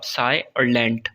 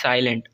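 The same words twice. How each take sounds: First: "साय" and "lent" said as two separate slow parts; split into syllables. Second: Said in the usual way. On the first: Shown as a demonstration. Teacher breaking a word for students, "साय" and "lent" apart. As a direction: break it after "साय", then "lent" on its own. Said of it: "इसको हम तोड़ते हैं". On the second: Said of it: "अब साय और lent".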